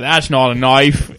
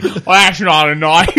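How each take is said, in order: First: Crocodile Dundee. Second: Lightly put-on Australian drawl, slowed; a hint of Aussie Crocodile Dundee. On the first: Retold or imitated. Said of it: "Was that supposed to be Crocodile Dundee". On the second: Joking Australian accent at the podcast friends. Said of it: "doing a Crocodile Dundee impression".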